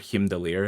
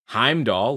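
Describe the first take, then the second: First: The name is said the original Norse way. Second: The name is said the common English way.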